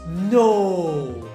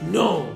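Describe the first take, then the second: First: It is said in a gossipy, disbelieving tone. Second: It is said in an angry tone. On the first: "disbelief but coming from a busybody neighbor who loves saucy gossips"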